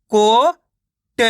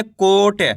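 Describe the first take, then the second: First: कोट split into a long ko, pause, then ta; कोट very slow, each letter on its own; sounded out in parts. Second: Said in the usual way. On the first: Shown as a demonstration. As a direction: sound out कोट slowly, piece by piece. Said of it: "direct मात्रा का उच्चारण करके पढ़ेंगे". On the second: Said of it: "तो मिलके बन जाएगा कोट".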